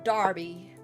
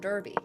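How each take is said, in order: First: The first vowel sounds like the vowel in 'car'. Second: The first vowel sounds like the vowel in 'earth'. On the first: The speaker calls it wrong. "but it's pronounced Darby" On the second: The speaker calls it right. "Why is it not pronounced the Derby? ... Like Earth"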